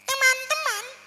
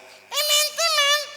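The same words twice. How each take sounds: First: A small voice, pressed from inside, slightly raised pitch. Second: A small voice pushed from outside, overdone.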